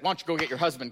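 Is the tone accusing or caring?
accusing. It sounds accusing, like catching someone out.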